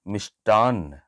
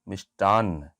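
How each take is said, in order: Both takes have the same delivery.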